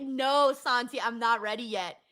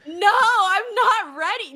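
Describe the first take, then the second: First: Much softer, deflated plea; quiet resignation. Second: Higher, pleading whine; mock despair. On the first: Telling Santi she's not ready, softly deflated. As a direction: let it sink in and go quiet. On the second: Refusing to accept Rey Mysterio's retirement, pleading whine. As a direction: wail it like a fan refusing bad news. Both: Real, not acted. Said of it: "I'm gonna cry".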